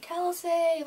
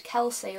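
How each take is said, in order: First: Much higher, playful imitated yell; mock scream of a name. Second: Said in the usual way. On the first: Imitating Bo calling her name at the meet and greet, mock high yell. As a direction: belt the name out like Bo did across the room. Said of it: "he just went ... like that". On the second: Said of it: "he just screamed".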